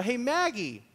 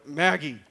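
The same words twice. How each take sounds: First: Higher-pitched re-enacted call; acted hail down the hallway. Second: Louder, lowered-voice call; mock-stern low call to wife. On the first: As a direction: call to your wife in another room. Calls wife again from couch. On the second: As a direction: drop your voice to summon her firmly. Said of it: "lower my voice".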